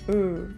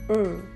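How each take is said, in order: First: It is said as a bare consonant sound. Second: The same.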